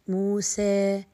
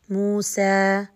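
First: The final vowel leans slightly toward e. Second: The final vowel is a straight, open a. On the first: "عندما قللت بالفتحة نوعا ما ابتسامة قليلة، أتى معايا اللي هو التقليل" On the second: "لما فتحت بشكل عمودي فأتت مستقيمة، صريحة"

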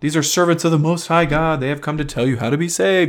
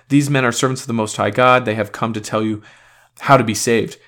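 First: It is said in a mocking tone. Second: It is said in a sincere tone.

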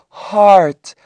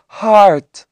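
Both takes have the same delivery.

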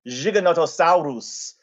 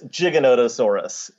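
First: It is said with an Argentine Spanish pronunciation. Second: It is said with an American English pronunciation. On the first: "which Rudolfo Coria would say. It's an Argentine pronunciation" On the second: "the way that most American paleontologists would say it"

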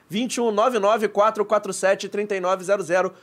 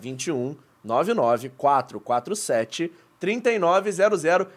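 First: The number is said quickly. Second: The number is said slowly.

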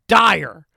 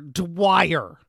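First: The W sound is dropped after the D. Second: The W sound is pronounced after the D. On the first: The speaker calls it wrong. "Why does it sound like an I all of a sudden" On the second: The speaker calls it right. "why we should not pronounce the W in the name"

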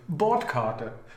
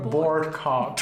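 First: The ending is said like German Karte. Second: The ending is said like English card. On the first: The speaker calls it right. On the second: The speaker calls it wrong. "not Boardcard. It sounds like a card"

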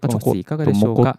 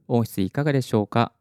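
First: The voice sounds muffled and less clear. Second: The voice sounds clear and carries well. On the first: The speaker calls it wrong. "クラウドリフターなしのテストです。" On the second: The speaker calls it right. "クラウドリフターありのテスト音声です。"

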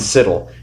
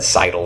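First: The name rhymes with the word fiddle. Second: The name does not rhyme with fiddle. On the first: The speaker calls it right. "He said it rhymed with fiddle" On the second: The speaker calls it wrong. "I could have said Seidel or something and butchered it"

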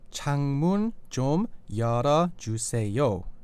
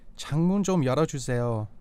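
First: It is said slowly. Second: It is said fast.

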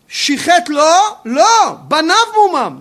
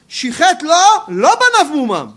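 First: There is a pause right before 'banav'. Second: There is no pause right before 'banav'. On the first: The blemish belongs to his children, not to God. The speaker calls it right. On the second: The blemish is not his children's. The speaker calls it wrong.

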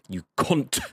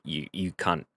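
First: The final T sound is clearly pronounced. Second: The final T sound is dropped. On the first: It sounds more venomous. "when Americans say it, there's the T" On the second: It sounds less venomous. "me as an Aussie, when I say it, it's almost like a three-letter word"

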